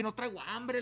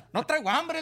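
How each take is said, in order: First: Said in the usual way. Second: "No traigo hambre" más agudo y fuerte, nervioso; asustado. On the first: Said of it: "le dije". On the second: Retold or imitated. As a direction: decir "No traigo hambre" con susto. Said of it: "yo estaba bien asustado". ("No traigo hambre" dicho asustado y agudo)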